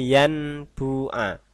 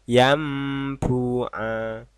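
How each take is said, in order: First: An n sound comes before the b. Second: An m sound comes before the b. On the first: The speaker calls it wrong. "jangan dibaca yanbu'a" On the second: The speaker calls it right. "tapi yam, jadi mim ya"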